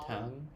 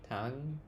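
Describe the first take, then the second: No difference in how they are said.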